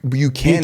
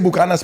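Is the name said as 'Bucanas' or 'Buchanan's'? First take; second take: Buchanan's; Bucanas. First: It is said 'Byoo-KAN-an' like the English surname. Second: It is said 'Boo-KAH-nas' with a hard k sound. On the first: This is the original pronunciation. The speaker calls it right. "It's Bu- Buchanan" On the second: This is how people commonly say it. The speaker calls it wrong. "we say Bucanas, but it's not actually pronounced like that"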